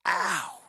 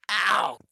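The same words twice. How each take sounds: First: Mild mock ow. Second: A higher, louder "Ow." than the first; hammed-up pained ow; louder mock ow. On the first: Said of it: "you're just like". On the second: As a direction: yelp "Ow." like a hit landed. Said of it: "I'm literally going".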